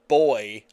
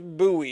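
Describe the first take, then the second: First: The word sounds just like 'boy'. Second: The word does not sound like 'boy'. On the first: This is how people in the valley say it. "I don't think I ever heard it as boy until I came to the valley" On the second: This is how the coastal village says it. "it was very very much buoy"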